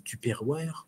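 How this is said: It is said with a French pronunciation. "je vais le prononcer à la française"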